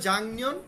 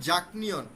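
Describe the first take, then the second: First: The first syllable ends in an ng sound. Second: The first syllable ends in a k sound. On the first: The speaker calls it right. "কিন্তু সে বলবে জাংনিয়ন" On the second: The speaker calls it wrong. "উচ্চারণটা কিন্তু আপনি পড়বেন জাকনিয়ন, যাকে বলবেন সে কিন্তু বুঝবে না"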